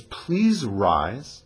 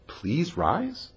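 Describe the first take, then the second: First: Said in the usual way. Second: Quiet, rising disbelief at the word rise; incredulous question. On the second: Shown as a demonstration. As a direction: ask it back as if it can't be right.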